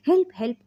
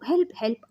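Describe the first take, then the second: First: Higher and louder cry of help; woman tied up yelling for help, higher and louder; screaming for help. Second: A higher, half-hearted call for help; hint of a panicked shout; mild cry for help. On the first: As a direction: call out in panic, high and loud. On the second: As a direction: narrator lightly voicing a scream. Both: A narrator's reading. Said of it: "మనోహరి కేకలు పెడుతూ ఉంటే".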